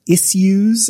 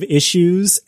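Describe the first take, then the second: First: It is said in a posh, affected way. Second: It is said in a plain, everyday way. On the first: "he says issues" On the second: "instead of issues"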